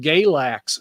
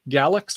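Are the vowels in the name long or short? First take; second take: long; short. First: The vowels are long A sounds. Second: The vowels are short, as in galaxy. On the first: The speaker calls it right. "down here in Virginia, we call it Galax ... you got those long A's" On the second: The speaker calls it wrong. "I thought it was um, Galax, like galaxy"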